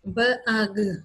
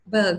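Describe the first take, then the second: First: The separate sounds are said a bit faster. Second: The sounds are blended into one word. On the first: "अगले में थोड़ा सा speed up कर दिया" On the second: "अगले में आपने इस तरह बोला साथ के"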